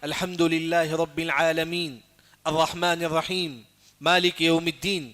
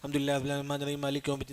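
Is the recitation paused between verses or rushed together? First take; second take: paused; rushed. First: The verses are recited slowly with pauses between them. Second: The verses are run together quickly without stopping. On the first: The speaker calls it right. "तरतील का मानी" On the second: The speaker calls it wrong. "हम घर में क्या करते हैं, कुरान पढ़ते हैं"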